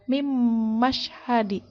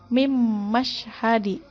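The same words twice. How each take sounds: No difference in how they are said.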